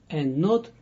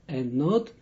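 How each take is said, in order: No difference in how they are said.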